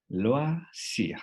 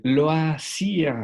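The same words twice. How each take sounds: First: "Loisir" ending on "wa-si", final r dropped; silent final r. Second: "loisir" very slow and loud, oi as "wa"; "loisir" said loudly, slowly, higher; careful French demo. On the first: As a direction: cut "Loisir" before the r. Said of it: "haremos el sonido hasta la letra antes de la no pronunciable". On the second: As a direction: draw out "loisir", no final r. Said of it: "Ese diptongo que es de los más elegantes". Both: Shown as a demonstration.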